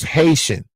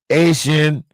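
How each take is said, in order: First: The word starts with an H sound. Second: The word starts with a vowel, no H. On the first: The speaker calls it right. "can't pronounce Haitian" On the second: The speaker calls it wrong.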